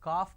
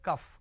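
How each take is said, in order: First: The word has a long 'aa' vowel. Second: The word has a short 'u' vowel. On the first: The speaker calls it wrong. "It's not కాఫ్" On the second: The speaker calls it right. "It is కఫ్"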